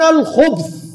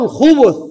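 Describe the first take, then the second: First: الخبث as "al-khubth", ب closed onto th; one closed syllable at the end of الخبث, khubth; vowelless ب. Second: الخبث as "al-khubuth", u after ب; damma on the ب. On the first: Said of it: "ساكنة الباء". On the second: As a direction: say الخبث with a short u on the ب. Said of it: "بضم الباء". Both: Shown as a demonstration.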